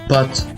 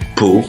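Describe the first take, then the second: First: The final t is pronounced. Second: The final t is silent. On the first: The speaker calls it wrong. "on ne dit pas" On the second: The speaker calls it right. "Mais bel et bien"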